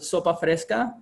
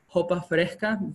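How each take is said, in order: First: The word starts with a clear S sound. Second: The word starts with a soft H sound.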